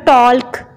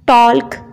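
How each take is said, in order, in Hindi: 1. K से पहले L की आवाज़ सुनाई देती है। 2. K से पहले L की आवाज़ सुनाई देती है।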